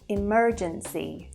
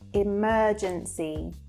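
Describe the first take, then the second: First: Said in an American accent with a strong R. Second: Said in a British accent with a soft R. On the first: "as opposed to American English where it would sound like this" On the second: "we have the soft R sound and it's slightly elongated"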